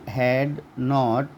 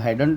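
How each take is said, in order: First: It is said as two full words. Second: It is said as one contracted word.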